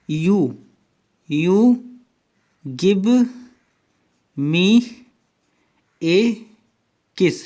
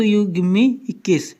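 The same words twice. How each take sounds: First: Each word said apart, with long pauses; slow spaced words. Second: "you give me a kiss" blurred into one quick run, "me a kiss" sounding like "इक्कीस"; run together fast. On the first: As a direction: drop one word at a time, slowly. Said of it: "इसको बहुत तेज तेज बोलिए". (शब्द-शब्द रुककर धीरे बोलना) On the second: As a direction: rattle it off as one word. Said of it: "तेज तेज बोलिए, जल्दी जल्दी बोलिए". ("you give me a kiss" जल्दी-जल्दी मिलाकर बोलना) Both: Shown as a demonstration.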